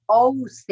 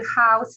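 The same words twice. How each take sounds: First: "house" said Spanish-style as "ouse", no h; silent h. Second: "house" with a breathy English h sounded at the start; correct English pronunciation. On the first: Teacher showing learners' mistake, "house" with silent h. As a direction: drop the h from "house", starting straight on the vowel. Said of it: "la H es muda". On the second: Teacher showing students a foreign word, "house" with audible h. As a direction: say "house" the English way, h clearly pronounced. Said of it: "¿Cómo aprendo a decir house". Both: Shown as a demonstration.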